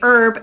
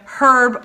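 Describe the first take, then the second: First: The word starts with a silent H. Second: The word starts with a pronounced H. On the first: This is the usual way in the States. "I say herb" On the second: This is the usual way in the UK. "They pronounce the H in herb"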